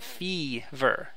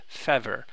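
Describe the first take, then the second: First: The first vowel is a long ee sound. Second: The first vowel is a short eh sound. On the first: The speaker calls it right. "You pronounce it letter E and you have fever" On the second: The speaker calls it wrong. "instead of fever"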